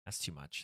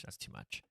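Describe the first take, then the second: First: Quiet. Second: Whispered to herself. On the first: Repeating to self. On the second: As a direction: drop to a bare whisper. Repeating to self, whispered. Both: Real, not acted.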